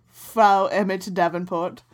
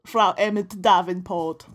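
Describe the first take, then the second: First: Slow mock German accent; hammy German accent, drawn out. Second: Slow mock German accent. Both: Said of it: "It's my German accent".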